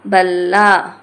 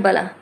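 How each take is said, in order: First: बल्ला split as बल-ला, final आ held long and loud; long, doubled sound. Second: बला said quickly with a single ल; short sound. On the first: Teacher showing length, बल्ला loud and drawn out. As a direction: stretch बल्ला loudly on a doubled ल. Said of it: "ऐसे". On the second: Teacher giving an example of length, बला kept short. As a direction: keep बला short and unstretched. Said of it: "समय की मात्रा कम है". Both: Shown as a demonstration.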